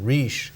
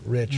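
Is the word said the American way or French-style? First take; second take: French-style; American. First: It is said with a French-style pronunciation. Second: It is said with a plain Midwestern American pronunciation.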